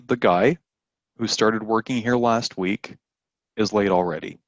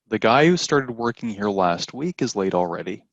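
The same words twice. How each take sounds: First: It is said with pauses around the clause. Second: It is said straight through without pauses.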